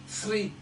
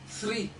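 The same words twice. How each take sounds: The two takes are said the same way.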